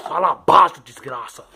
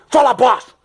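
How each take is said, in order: First: Said in the usual way. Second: Fala baixo yelled high and loud, Fala hit hard; shouting fala baixo. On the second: Acted. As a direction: bark Fala baixo as a loud order, punching Fala. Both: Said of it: "você tá gritando também?".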